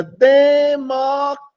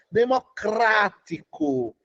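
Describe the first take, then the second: First: Democrático stretched slowly, higher and louder; drawn-out democrático. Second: Democrático said slowly, syllable by syllable. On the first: Teacher stretching democrático to show its length. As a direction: show how long democrático is. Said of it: "Ó o tamanho da palavra". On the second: Teacher dragging out democrático for the class. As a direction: drag democrático out to show its size. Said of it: "ó o tamanhão da palavra". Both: Shown as a demonstration.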